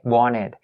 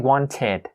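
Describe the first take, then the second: First: The T sound after the N is dropped. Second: The T sound after the N is pronounced. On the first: The speaker calls it right. "they tend to kind of leave the T sound out" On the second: The speaker calls it wrong. "Don't say wanted"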